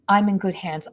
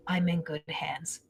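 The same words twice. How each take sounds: First: Said in the usual way. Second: Breathy hushed whisper, almost no voice. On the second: Retold or imitated. Relaying her son's words to the mother in a whisper. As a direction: let it drop to a secret whisper.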